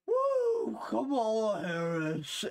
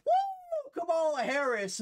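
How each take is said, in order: First: High woo fading into a slow, tired name; a breathless, pathetic fake cheer; winded mock cheer. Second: Hammed-up high cheer, much louder; mocking a supporter's big cheer. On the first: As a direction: cheer that runs out of breath halfway. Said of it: "No, it's like". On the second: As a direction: squeal a fake fan's woo, then say the name. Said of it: "There's no energy where it's like".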